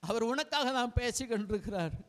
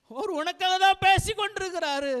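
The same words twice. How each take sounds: First: Said in the usual way. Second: Higher and louder, hitting தான்; louder repeat. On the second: Acted. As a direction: repeat it with more force, stressing தான். Repeated line, second take louder.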